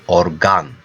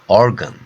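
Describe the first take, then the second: First: The second vowel is a full, clear a. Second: The second vowel is weak and reduced. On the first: "in Turkish, it will be organ, organ, because that sound, that letter is A" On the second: "In English, you write or, O R G A N, so, but you read like organ"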